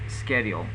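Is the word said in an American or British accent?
American. The word is said in an American accent. "And the American pronunciation is schedule"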